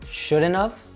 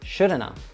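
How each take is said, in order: First: The final have is said with its v sound. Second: The final have shrinks to a short uh.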